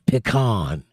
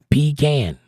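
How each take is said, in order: First: The second syllable sounds like 'con'. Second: The second syllable sounds like 'can'. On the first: The speaker calls it wrong. "I don't open a con of peas" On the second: The speaker calls it right. "I open a can of peas"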